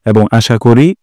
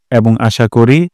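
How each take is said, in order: Both takes have the same delivery.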